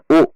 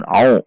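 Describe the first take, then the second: First: "u" as a plain vowel; simple "u" with no throat constriction; wrong ain. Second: "au" squeezed from mid-throat; throaty ain onset on "au"; correct ain. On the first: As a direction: show the mistaken plain "u". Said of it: "bukan u". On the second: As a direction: say "au" with the Arabic ain constriction. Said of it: "perhatikan huruf ain". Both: Shown as a demonstration.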